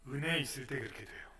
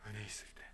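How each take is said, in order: First: Said in the usual way. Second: Repeated much softer; soft echo. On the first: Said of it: "어느 때 그렇게 됩니까?". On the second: Shown as a demonstration. Pastor echoing the answer softly to the congregation. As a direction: let it fall to a hush.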